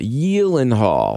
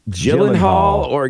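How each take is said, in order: First: The name begins with a Y sound. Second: The name begins without a Y sound. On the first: The speaker calls it right. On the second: The speaker calls it wrong.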